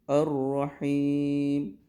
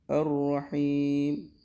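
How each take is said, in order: The two takes are said the same way.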